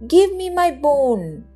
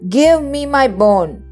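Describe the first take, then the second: First: It is said quietly. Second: It is said loudly.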